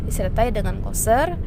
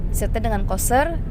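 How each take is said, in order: Both takes have the same delivery.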